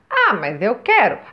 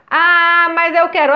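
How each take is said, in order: First: It is said at the softest volume. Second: It is said at a louder volume.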